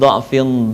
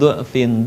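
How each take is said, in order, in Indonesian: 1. Vokal pertama adalah bunyi 'a' terbuka. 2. Vokal pertama adalah bunyi 'u' membulat. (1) "dengan dha' berharokat fathah" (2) "dengan harokat dhammah"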